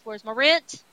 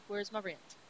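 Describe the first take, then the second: First: Demanding landlord. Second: Said in the usual way. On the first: Retold or imitated. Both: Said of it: "here comes the landlord with".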